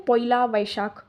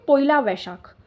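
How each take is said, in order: First: Slow, light Bengali accent. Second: Said in the usual way. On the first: Shown as a demonstration. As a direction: say पोइला वैशाख the Bengali way. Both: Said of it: "थोड़ा सा ये आप बंगाली वाला accent आ रहा है इसमें".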